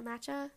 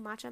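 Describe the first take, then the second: First: "matcha" as MATCH-a, short a; second pronunciation. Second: "matcha" as MAH-cha, broad ah; first pronunciation. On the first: Asking listeners which version is right, second pronunciation. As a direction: front the first vowel of "matcha", as in "cat". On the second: Asking listeners which version is right, first pronunciation. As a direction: open the first vowel of "matcha" to ah. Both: Shown as a demonstration. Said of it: "secret key to pronouncing".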